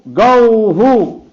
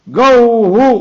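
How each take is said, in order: First: "गौहु" बहुत धीरे, खींचकर, गिरते सुर में; दूसरा "गौहु" धीमा और खिंचा, अंत में नीचे उतरता; गो का दूसरा उच्चारण. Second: "गौहु" ऊँचे स्वर में, ज़ोर से, अंत में उठता हुआ; पहला "गौहु" ऊँचा और ज़ोरदार, सवाल जैसा उठान; गो का पहला उच्चारण. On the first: ("गौहु" बहुत धीरे खींचकर, गिरते सुर में) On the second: ("गौहु" ऊँची, ज़ोरदार, उठती आवाज़ में) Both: Shown as a demonstration. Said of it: "ऐसा बोला ना".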